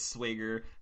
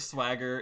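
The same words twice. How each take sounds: First: It is said in a Minnesotan accent. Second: It is said in a General American accent. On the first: "it's swagger" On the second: "Instead of swagger"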